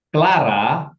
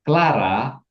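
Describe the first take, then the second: Both takes have the same delivery.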